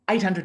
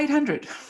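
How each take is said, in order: First: It is said firmly and directly, without hesitation. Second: It is said hesitantly after stumbling false starts. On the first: The price is fully committed to. The speaker calls it right. "Direct, congruent" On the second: The speaker fears the price is too much. The speaker calls it wrong. "if you're uncertain"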